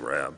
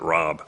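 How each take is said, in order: First: The vowel sounds like the one in 'cab'. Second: The vowel sounds like the one in 'cob'. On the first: This is how the speaker's own family says it. "although I say Rab" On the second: This is how other people with the name say it. "I think they pronounce it Rob"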